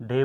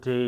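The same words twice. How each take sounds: First: ডে as a short plain "de", no glide; wrong short day. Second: ডে drawn out as "dey" with a glide; correct gliding day. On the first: Teacher showing the mistake, short flat vowel. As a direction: cut ডে to a pure E vowel. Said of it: "ডে বলবো না". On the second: Teacher giving the correct form, long gliding vowel. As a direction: end ডে on an audible Y glide. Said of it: "আমরা বলবো ডে". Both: Shown as a demonstration.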